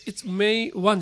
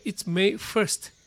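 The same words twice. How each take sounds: First: It's May one as the mistaken date form; wrong It's May one. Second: It's May first said slowly and clearly; correct It's May first. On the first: Teacher showing the wrong date form. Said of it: "じゃなくて". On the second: Teacher giving the correct date form. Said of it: "日付は". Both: Shown as a demonstration.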